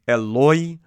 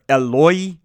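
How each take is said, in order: First: The word is pronounced with an 'o' sound: Eloi. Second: The same.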